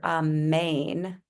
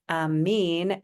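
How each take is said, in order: First: It is said with an 'ayn' ending, Hebrew style. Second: It is said the Arabic way, as 'amin'. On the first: This is how it is said in Hebrew and Aramaic. "the Hebrew and the Aramaic pronunciations were amen, and you could spell it A M E Y N" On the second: This is how it is said in Arabic and Persian. "amin is the pronunciation in Arabic and also in Persian"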